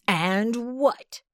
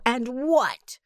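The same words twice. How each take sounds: First: Demanding. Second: Breathy whispered "what" falling. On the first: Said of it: "demanded Bospo". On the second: Bospo pressing the old cat, whispering "And what?". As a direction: whisper "what", letting it drop. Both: A narrator's reading.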